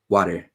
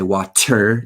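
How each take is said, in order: First: The T is pronounced as a quick flap. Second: The T is pronounced as a clear T. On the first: The speaker calls it right. "the T often becomes like a flapped R sound" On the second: The speaker calls it wrong. "it's not like we say water"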